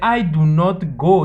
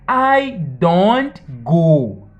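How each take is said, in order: First: Do and not are said as two full words. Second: Do and not are joined into one short word. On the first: "Em vez de dizer" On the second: "you can just say"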